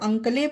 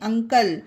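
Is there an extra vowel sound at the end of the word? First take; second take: yes; no. First: The word ends with an extra vowel sound. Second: The word ends in a plain 'l' sound. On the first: The speaker calls it wrong. "ई है तो अंकले पढ़े, नहीं" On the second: The speaker calls it right.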